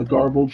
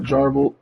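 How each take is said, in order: First: "garbled" with a hard G, correcting the slip; self-correction. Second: "jarbled" with a J sound, a slip for garbled; slip of the tongue. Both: Real, not acted. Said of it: "uh, garbled".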